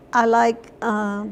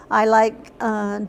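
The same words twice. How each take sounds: The two takes are said the same way.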